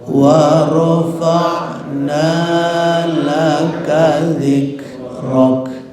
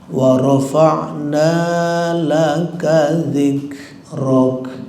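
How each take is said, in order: No difference in how they are said.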